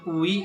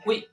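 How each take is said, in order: First: The two vowels are said slowly and separately. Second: The two vowels are said quickly together. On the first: The speaker calls it wrong. "bukan ui ya kan?" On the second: The speaker calls it right. "Bacanya agak cepat sedikit"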